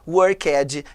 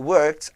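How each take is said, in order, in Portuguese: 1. O final é pronunciado como uma sílaba 'ed' completa. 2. O final é pronunciado como uma consoante sem vogal. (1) "Nunca fale walked, played, worked, que não existe isso" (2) "O ed nunca tem som de ed"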